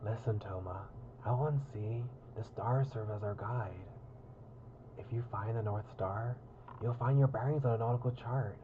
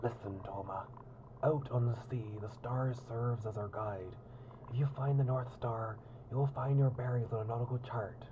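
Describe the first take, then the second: First: Put-on gruff pirate accent; hammed-up pirate captain. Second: Said in the usual way. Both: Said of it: "wait, I was doing a pirate accent".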